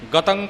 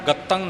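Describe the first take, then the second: First: The 't' sound is soft and single. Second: The 't' sound is doubled and hard. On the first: The speaker calls it right. "पोला बोलना है" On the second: The speaker calls it wrong. "नहीं कहना"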